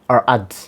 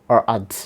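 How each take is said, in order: The two takes are said the same way.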